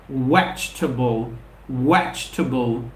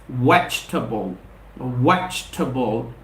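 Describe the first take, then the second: Both takes have the same delivery.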